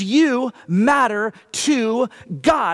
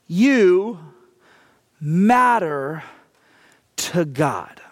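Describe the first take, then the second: First: It is spoken at a normal pace. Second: It is spoken at a slow pace.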